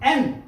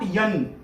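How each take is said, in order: First: It starts with a plain e vowel. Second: It starts with a y sound before the vowel. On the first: The speaker calls it right. "ए एडक्याचा ए एन" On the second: The speaker calls it wrong. "Not यन"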